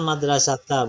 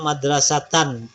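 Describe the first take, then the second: First: The word ends with a long vowel. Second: The word ends with an n sound. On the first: "Jangan madrasata, bukan" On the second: "Misalnya madrasatan"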